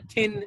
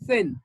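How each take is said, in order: First: The first sound is pronounced hard. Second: The first sound is pronounced soft. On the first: The speaker calls it wrong. "we pronounce it harder. We say thin" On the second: The speaker calls it right. "but it is"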